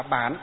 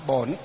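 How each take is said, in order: First: Bản said with the northern vowel a, level falling tone; northern reading Bản. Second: Bổn said with the southern vowel ô and a dipping tone; southern reading Bổn. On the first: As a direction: read it Bản, the Hanoi way. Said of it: "Miền Bắc đọc là Bản". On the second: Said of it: "miền Nam thì đọc là Bổn". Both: Shown as a demonstration.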